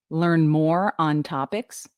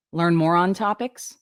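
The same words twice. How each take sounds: First: Slow, with "more" and "on" kept apart; clear diction. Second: "more on" run into one, like moron; words strung together. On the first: Coach showing correct diction, "more on" separated slowly. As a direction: stretch "more", then a separate "on". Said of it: "you're reading things correctly". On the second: Coach showing careless diction, "more on" strung together. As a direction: link "more on" with no gap. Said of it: "not stringing words together". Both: Shown as a demonstration.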